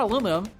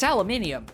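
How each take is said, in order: First: The word ends with a plain 'um' sound. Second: The word ends with an 'ium' sound. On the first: This is how Americans say it. The speaker calls it wrong. "So it's not aluminum" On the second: This is how everyone else says it. The speaker calls it right. "it's aluminium"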